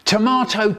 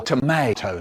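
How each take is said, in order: First: Tomato with a broad "ah" middle; British pronunciation. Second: Tomato with an "ay" middle; American pronunciation. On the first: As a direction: say tomato as "to-MAH-to". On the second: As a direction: say tomato as "to-MAY-to". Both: Shown as a demonstration. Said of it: "Which is it?".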